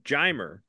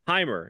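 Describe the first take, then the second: First: The name begins with an English J sound. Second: The name begins with a breathy H sound. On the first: "why do you say his name Jimer?" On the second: "Isn't the J, huh? Isn't that the sound it makes?"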